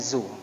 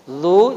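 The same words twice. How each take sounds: First: The consonant is a plain 'z' sound. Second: The consonant is a soft 'th' sound. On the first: The speaker calls it wrong. "jangan diganti dengan zu" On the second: The speaker calls it right. "Huruf zal"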